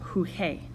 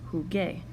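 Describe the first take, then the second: First: The middle consonant sounds like a breathy h. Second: The middle consonant is a hard g sound. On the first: The speaker calls it wrong. "this would be pronounced huge, gibberish" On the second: The speaker calls it right. "we change the G to a G U"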